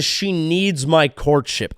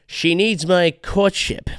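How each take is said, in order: First: Slow, stretched mock; mock pompous. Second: Slow, smug rising mock; fedora-guy mock. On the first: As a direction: drag out MY with scorn. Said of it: "any guy who says". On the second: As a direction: sneer it with a rise. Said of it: "wearing a fedora".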